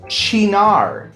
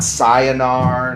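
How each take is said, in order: First: The word begins with a ch sound. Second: The word begins with an s sound. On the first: The speaker calls it right. "this is pronounced chinar" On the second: The speaker calls it wrong. "not cyanar"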